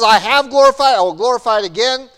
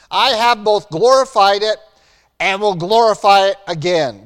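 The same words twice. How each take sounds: First: Booming, higher proclamation as God. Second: Said in the usual way. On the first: Acted. God answering Jesus from heaven, booming proclamation. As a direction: declare it loud and high from heaven. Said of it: "And so God says". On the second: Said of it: "remind ourselves what the voice from heaven said".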